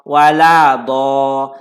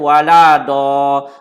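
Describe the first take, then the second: No difference in how they are said.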